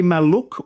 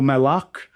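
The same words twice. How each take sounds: First: "Maluk" as mal-LOOK; one vowel option. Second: "Malak" as mal-LUK, with a short uh; other vowel option. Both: Shown as a demonstration. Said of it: "a short or a long vowel sound".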